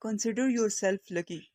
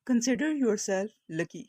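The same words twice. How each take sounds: First: Said in the usual way. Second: Said slowly and clearly; slow it down so learners follow; slow model reading. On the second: Shown as a demonstration. Teacher to Urdu learners, slow clear model. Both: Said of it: "اس طرح سے بولیں گے".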